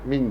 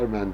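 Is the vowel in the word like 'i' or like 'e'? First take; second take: i; e. First: The vowel sounds close to 'i'. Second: The vowel sounds close to 'e'. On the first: This is how British speakers say it. "İngilizler min diyorlarmış" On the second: This is how American speakers say it. "Amerikalılar men diyorlarmış"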